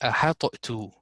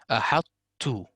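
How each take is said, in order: First: The t sound ends with an echoing bounce. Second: The t sound stops cleanly without an echo. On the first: The speaker calls it wrong. "I will not pronounce the ta here with a turbulence" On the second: The speaker calls it right. "So this will be a hat two"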